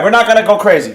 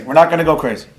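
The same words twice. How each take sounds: First: Said in the usual way. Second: Calming himself. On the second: Real, not acted. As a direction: talk yourself down, gently.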